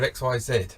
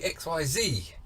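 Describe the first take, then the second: First: The last letter is said the British way. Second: The last letter is said the American way. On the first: This is how Brits say it. "instead of X Y Z" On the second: This is how Americans say it. "why do they say X Y Z"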